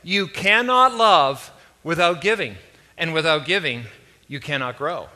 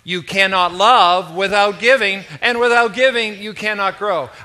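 First: It is said slowly and deliberately. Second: It is said with lively enthusiasm. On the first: "let's say it once or slowly" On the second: "and then we're going to say it once enthusiastically"

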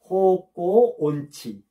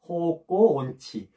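No difference in how they are said.

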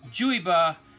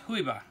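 First: The name is said with an American English pronunciation. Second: The name is said with a Spanish pronunciation. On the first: "if you're just a good old American, you don't know any Spanish, it's Juyba" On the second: "in Spanish it would be pronounced Juyba"

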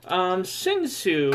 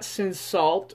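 First: The second syllable ends without an L sound. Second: The second syllable ends with an L sound. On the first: The speaker calls it right. "we call it Saw" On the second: The speaker calls it wrong. "it's not Cinsault"

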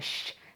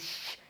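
First: The hiss sounds clear, tongue held back. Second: The hiss sounds distorted, tongue against the teeth. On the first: The speaker calls it right. "Dil geride" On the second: The speaker calls it wrong. "dil ucunu dişe temas ettirirseniz şey diyemezsiniz. Şş, şş olmuyor"

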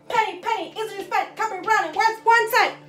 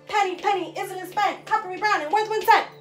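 No difference in how they are said.

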